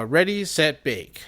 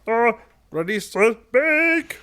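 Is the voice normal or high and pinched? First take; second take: normal; high and pinched. First: It is said in a normal voice. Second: It is said in a high, pinched voice.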